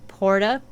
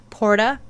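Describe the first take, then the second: No difference in how they are said.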